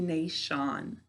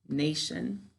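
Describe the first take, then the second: First: The ending is said fully, like 'Sean'. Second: The ending is a reduced, quick 'shun' sound. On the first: This is a spelling pronunciation to help write it. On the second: This is how the word is normally spoken.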